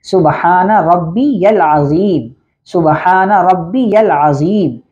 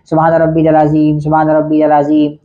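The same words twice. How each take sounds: First: रब्बियल with a doubled b and a clear ya, said slowly; correct pronunciation. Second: रब्बियल slurred to rabbidal, सुबहान run together; common mispronunciation. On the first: Shown as a demonstration. Teacher giving the correct ruku prayer, slow and precise. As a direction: slowly say सुबहान रब्बियल अज़ीम with every sound clear. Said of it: "असल लफ्ज़ है". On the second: Retold or imitated. Teacher imitating people who say the ruku prayer wrongly, careless. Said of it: "वो क्या कहते हैं?".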